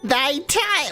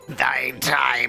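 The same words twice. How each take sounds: First: It is said in an ordinary speaking voice. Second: It is said in a put-on dead voice. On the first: The speaker calls it wrong. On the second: The speaker calls it right.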